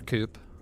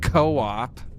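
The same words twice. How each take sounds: First: The word is said as one syllable. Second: The word is said as two syllables. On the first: The speaker calls it wrong. "we'll pretend it says Coop" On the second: The speaker calls it right. "it's pronounced co-op"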